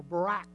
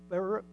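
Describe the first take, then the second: First: "Barak" stressed on the second syllable, like buh-RACK. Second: "Barak" stressed on the first syllable, like BARE-ick. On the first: Preacher offering the alternative pronunciation, "Barak" stressed at the end. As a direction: say "Barak" with a reduced first vowel. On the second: Preacher offering a congregation one pronunciation, "Barak" stressed up front. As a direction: say "Barak" with a short, unstressed ending. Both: Shown as a demonstration. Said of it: "or Barak, yeah".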